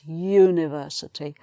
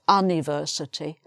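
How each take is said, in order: First: The word begins with a Y sound. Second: The word begins with a plain vowel sound. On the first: The speaker calls it right. "the actual sound when you say this word is a Y" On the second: The speaker calls it wrong. "It's not university"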